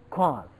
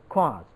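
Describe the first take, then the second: No difference in how they are said.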